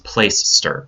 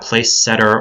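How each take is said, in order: First: It sounds like playster, two short syllables. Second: It sounds like place-setter, with an extra syllable. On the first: The speaker calls it right. "It's Placester" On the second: The speaker calls it wrong. "It's not Placesetter"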